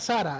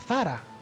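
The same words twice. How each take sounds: First: The first sound is an s sound. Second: The first sound is a th sound.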